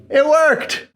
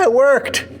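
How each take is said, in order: First: Even higher, gleeful repeat; excited. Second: High, happy exclamation; excited. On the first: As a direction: cheer it again, more thrilled. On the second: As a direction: cheer it, thrilled. Celebrating the cut working. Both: Real, not acted.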